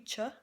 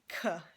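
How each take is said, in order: First: The consonant sounds like 'ch' in church. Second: The consonant sounds like a 'k'. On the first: The speaker calls it wrong. "It's not gonna be ch" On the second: The speaker calls it right. "It's gonna be k"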